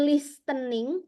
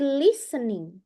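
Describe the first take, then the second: First: The t in the middle is clearly pronounced. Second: The t in the middle is silent. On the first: The speaker calls it wrong. "Bukan listening" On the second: The speaker calls it right. "tapi listening. ... T-nya jangan dibaca"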